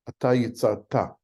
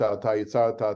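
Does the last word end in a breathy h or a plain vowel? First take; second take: breathy h; plain vowel. First: The last word ends with an audible breathy h. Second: The last word ends on a plain open vowel. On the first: The speaker calls it right. "how to pronounce the Hebrew" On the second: The speaker calls it wrong. "which is the way perhaps we would have said it before"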